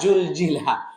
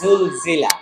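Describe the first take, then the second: First: It begins with a j sound. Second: It begins with a z sound. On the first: The speaker calls it wrong. "জুল জিলা বললে জিম হয়ে যাবে" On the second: The speaker calls it right. "বলতে হবে জুল জিলা"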